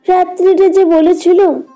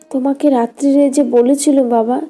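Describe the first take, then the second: First: It is said as a mocking imitation of her. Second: It is said plainly, in the daughter's voice.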